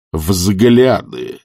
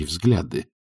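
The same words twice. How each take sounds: First: «взгляды» stretched out and weighted; portentous, drawn-out «взгляды»; capital-letter emphasis. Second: Said in the usual way. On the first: A narrator's reading. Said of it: "с большой буквы".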